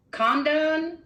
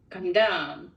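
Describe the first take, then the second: First: CON in "Condone" pitched high, second syllable unstressed; stress on first syllable. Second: "condone" with light first syllable, stressed DONE; stress on second syllable. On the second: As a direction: land on DONE in "condone", reducing con. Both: Shown as a demonstration. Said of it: "read this two different ways".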